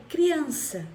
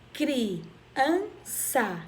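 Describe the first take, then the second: First: Said in the usual way. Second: "criança" as cri, an, ça with pauses; split into syllables. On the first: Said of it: "Quando eu vou separar a palavra". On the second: Shown as a demonstration. Teacher showing three mouth openings, "criança" split in three. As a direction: separate every syllable of "criança". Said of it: "abri a minha boca três vezes".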